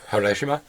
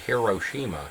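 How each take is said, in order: First: The word is said quickly, run together. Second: The word is said slowly, syllable by syllable. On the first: The speaker calls it right. "it's meant to be said like quickly" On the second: The speaker calls it wrong. "in America, we say"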